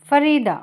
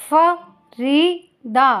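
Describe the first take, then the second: First: Said in the usual way. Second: Very slow, stretched Farida; slow careful model word. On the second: Shown as a demonstration. Teacher modelling Farida slowly for listening pupils. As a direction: draw out Farida for the class. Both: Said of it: "listen to your teacher say the following words".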